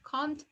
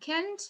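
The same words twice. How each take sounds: First: It is said with a British accent. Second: It is said with an American accent. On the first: "this is uh, British pronunciation" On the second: "this is American pronunciation"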